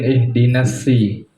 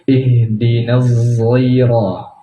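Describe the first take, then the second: First: The word begins with a plain s sound. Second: The word begins with a thickened z sound. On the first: "ada dengan sin" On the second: "zainya ditebalkan"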